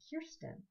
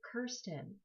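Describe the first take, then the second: First: The name is said the Swedish way. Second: The name is said the Scottish way. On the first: "I suddenly became Swedish" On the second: "my name was pronounced the Scottish way"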